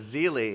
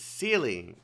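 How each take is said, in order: First: The name begins with a buzzing Z sound. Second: The name begins with a hissing S sound. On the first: This is how the English dub says it. "they pronounce it C- uh, Zealy in in the English voiceover" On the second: This is the speaker's own pronunciation. "It's Sealy"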